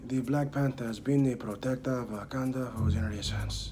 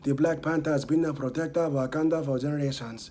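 First: It is spoken slowly and deliberately. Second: It is spoken fairly fast.

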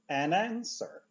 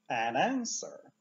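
No difference in how they are said.

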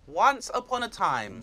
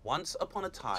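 First: It is said in a higher-pitched voice. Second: It is said in a low-pitched voice.

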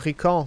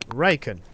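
First: The name is said with French pronunciation. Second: The name is said with English pronunciation. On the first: A French speaker is saying the name. "Bonjour, je suis français" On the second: An English speaker is correcting the name. "on a un équipage genre anglophone"

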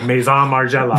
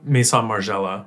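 First: It is said in a robotic computer voice. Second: It is said in her natural voice.

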